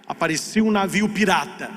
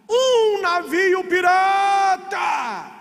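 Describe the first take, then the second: First: Said in the usual way. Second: Long-drawn, high-pitched cry; lookout's shout. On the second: Retold or imitated. Lookout warns the crew from up high, drawn-out shout. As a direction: stretch every word out like a lookout's hail.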